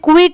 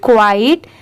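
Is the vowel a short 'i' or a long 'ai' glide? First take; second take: short i; long ai. First: The word has a short 'i' vowel. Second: The word has a long 'ai' vowel. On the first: The speaker calls it wrong. "बहुत सारे लोग इसे क्विट pronounce करते हैं but वो wrong होता है" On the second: The speaker calls it right. "इसे हम क्वाइट पढ़ेंगे"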